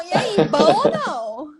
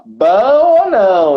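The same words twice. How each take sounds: First: Slow southern Brazilian "bom ou não?" rising at the end; southern greeting intonation. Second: "Bom" stressed, high and slow, falling; southern greeting tune. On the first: Teacher showing how people in the South greet each other. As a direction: show the southern greeting tune, drawn out. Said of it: "como a gente se cumprimenta lá, lá no Sul". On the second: Host copying the teacher's southern greeting tune. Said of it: "tem que ter toda uma entonação". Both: Shown as a demonstration.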